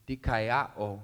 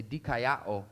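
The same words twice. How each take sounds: First: Dikaiao said clearly as dee-kai-AH-oh; Greek word dikaiao. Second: Dikaiao drawn out slowly as dee-kai-AH-oh for repeating; slow Greek word. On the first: Pastor introducing the Greek word dikaiao, plainly pronounced. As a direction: spell out dikaiao for the congregation, then let it fall. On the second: Pastor leading the congregation to repeat dikaiao, slow and careful. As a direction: say dikaiao slowly so everyone can echo it. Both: Shown as a demonstration. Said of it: "Say dikaiao".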